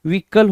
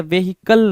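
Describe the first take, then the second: First: व्हीकल in two syllables, VEE-KAL, silent h; correct pronunciation. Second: व्हीकल in three slow syllables, VE-HI-KAL, h sounded; wrong pronunciation. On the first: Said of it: "व्हीकल होता है". (व्हीकल को "वी-कल", ह चुप रखकर) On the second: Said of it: "व्हीकल नहीं होता है". (व्हीकल को "वे-हि-कल", ह साफ़ बोलकर) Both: Shown as a demonstration.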